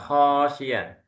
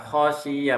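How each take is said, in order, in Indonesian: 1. Vokal pertama dipanjangkan. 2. Vokal pertama pendek, diucapkan langsung. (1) "bukan khosiyah" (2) "Langsung khosiyah"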